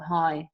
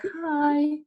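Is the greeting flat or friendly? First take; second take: flat; friendly. First: It is said flatly, without emotion. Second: It is said nicer, with a higher voice.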